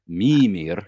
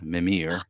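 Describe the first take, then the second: First: The stress is on the first syllable. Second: The stress is on the second syllable. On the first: The speaker calls it right. "put the emphasis on the first syllable" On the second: The speaker calls it wrong. "want to put emphasis elsewhere"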